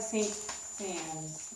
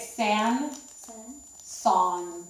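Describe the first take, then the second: First: The name ends with an audible S sound. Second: The name ends without any S sound. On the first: The speaker calls it wrong. "It looks like Saint Sans" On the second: The speaker calls it right. "You don't say the S at the end"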